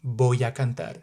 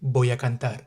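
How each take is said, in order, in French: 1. Les mots sont liés en un flux fluide. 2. Les mots sont liés en un flux fluide.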